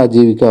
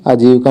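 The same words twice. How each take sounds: First: आजीविका in full, "aa-jee-vi-kaa"; correct pronunciation. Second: आजीविका squeezed to "aa-jiv-ka"; wrong pronunciation. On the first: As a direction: sound the "vi" in आजीविका. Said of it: "आजीविका होता है". (आजीविका में 'वि' साफ़ बोलें) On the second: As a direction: swallow the second I of आजीविका. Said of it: "आजीविका नहीं होता है". (आजीविका को 'आजीवका' जैसा बोलें) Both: Shown as a demonstration.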